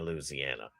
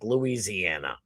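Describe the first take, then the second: First: It is said the Louisiana local way. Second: It is said the Boston way.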